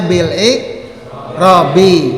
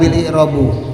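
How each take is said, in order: First: The last word ends with an i vowel. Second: The last word ends with a u vowel. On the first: The speaker calls it right. "kita pasti membacanya bil i'rabi" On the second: The speaker calls it wrong. "tidak bil i'robu"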